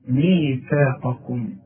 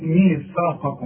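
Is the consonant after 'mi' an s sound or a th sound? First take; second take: th; s. First: The consonant after 'mi' sounds like th. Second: The consonant after 'mi' sounds like s. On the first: The speaker calls it right. "ادي كل حرف حقه في القرآن" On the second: The speaker calls it wrong. "في كتير ما يعرفوش يطلعوا الساء دي"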